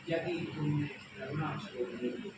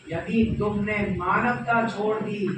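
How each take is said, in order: First: Softer, measured warning; restrained warning. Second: Loud, swelling warning; forceful warning. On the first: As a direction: hold the warning back, softly. First of two parallel warnings. (धीमे स्वर में संयत चेतावनी) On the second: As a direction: drive the warning home loudly. Second parallel warning, escalated. (ज़ोरदार, बुलंद चेतावनी) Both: Acted.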